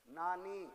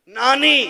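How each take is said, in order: First: Much softer, hushed build-up; quiet, held-back delivery. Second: High, ringing shout; loud proclamation. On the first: Preacher prompting the crowd about the Sayyids' grandmother, quietly. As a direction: say it softly, holding back. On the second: Preacher honouring the Sayyids' grandmother before the crowd, loud proclamation. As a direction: proclaim it at full volume. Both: Shown as a demonstration. Same word softly, then loudly.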